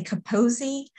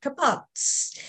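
First: "Capozzi" said with a final "ee" syllable; original Italian pronunciation. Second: "Kapotz" with the final vowel dropped, ending on "ts"; shortened Italian-accent pronunciation. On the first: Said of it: "say it with an Italian accent". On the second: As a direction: say "Kapotz" as Italian clipped to two syllables. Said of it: "said it with an Italian accent, it would come out". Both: Shown as a demonstration.

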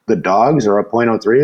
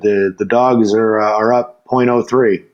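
First: "The dogs are up point oh three?" rising at the end; puzzled question. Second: Said in the usual way. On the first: Acted. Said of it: "And he's like". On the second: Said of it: "and I'm like".

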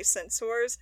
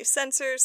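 First: "censors" said as sen-sors, rhyming with "doors"; full-vowel pronunciation. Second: "censors" said as SEN-sers, reduced ending; usual pronunciation. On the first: Showing how other Star Trek people say "censors", as sen-SORS. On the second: Showing how some Star Trek people say "censors", as SEN-sers. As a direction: say "censors" with a weak "ers" ending. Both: Shown as a demonstration. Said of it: "some people say censors".

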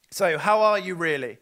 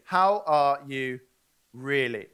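First: A louder, casual how-are-you; offhand greeting voice; louder breezy greeting. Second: Really mean the question this time; gentle earnest how are you; sincere slow ask. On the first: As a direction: toss the question off like small talk. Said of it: "repeated slower as the real question". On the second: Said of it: "contrasted with casual first take". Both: Shown as a demonstration.

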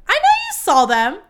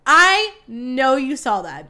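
First: High, loud accusing insistence; insistent. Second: Slow, loud, drawn-out emphasis; emphatic repeat. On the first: Gossip host to listeners about premiere photos, insistent. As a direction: press the listener hard, voice pitched up. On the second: Gossip host to listeners about premiere photos, slow and emphatic. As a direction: stretch out I and hammer each word. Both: Real, not acted.

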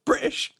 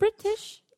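First: British said with the T dropped to a glottal stop, high and mocking; imitating others saying British with no T; British without the T. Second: British said high with a mock British flavour; a Canadian trying British in a half-hearted British accent; British, own try. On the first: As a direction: say British as Brih-ish, no T. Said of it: "They never do the T". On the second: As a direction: say British in a self-conscious British try. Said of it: "it sounds ridiculous if I say it". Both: Shown as a demonstration.

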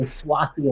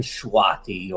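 First: "Swati" with a plain s onset; S pronunciation. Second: "Shwati" with a sh onset; SH pronunciation. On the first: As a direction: start "Swati" on s, no h. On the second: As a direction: start "Shwati" on a hushing sh. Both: Shown as a demonstration. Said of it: "the difference between Swati and Shwati".

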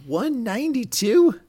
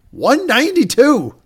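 First: Much higher, slow, rising question; stunned disbelief. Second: Much higher, louder, slow announcement; triumphant reveal. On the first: Real, not acted. Reacting to the surprise offer with a co-host, stunned. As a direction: ask it like you can't believe it. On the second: Retold or imitated. Announcing the huge revised offer to the plane, triumphant. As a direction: drop the big number like a win.

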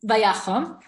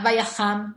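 First: Vayachom said with an o sound, as the right form; right reading. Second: Vayacham said with an a sound, as the wrong form; wrong reading. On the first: Teacher correcting vayacham to vayachom. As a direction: stress the o in vayachom. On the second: Teacher showing the wrong reading of vayacham. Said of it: "not vayacham". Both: Shown as a demonstration.

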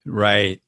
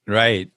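Both takes have the same delivery.

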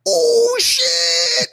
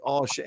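First: High, loud startled "Oh shit!"; shocked yelp. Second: Said in the usual way. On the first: Retold or imitated. A classmate yelps in shock as the bully gets pinned, very high and loud. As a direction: shriek it out, way up high, like a kid who can't believe what he saw.

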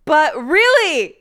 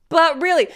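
First: Slow, loud, high "really" falling; "But really," dragged out with a big fall on "really"; drawn-out but really. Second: Loud, high "but" stressed, then short fall; "but really," with the weight on "but"; quick but really. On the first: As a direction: stretch "really" long and loud, pitch up then down. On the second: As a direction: punch "but" and clip "really". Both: Shown as a demonstration.

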